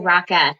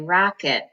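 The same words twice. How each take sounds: First: The second syllable has a full, clear E vowel. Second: The second syllable has a weak, reduced vowel. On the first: The speaker calls it wrong. "we don't say rocket" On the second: The speaker calls it right. "first syllable has all of the accent so that any other vowels sound like I or uh"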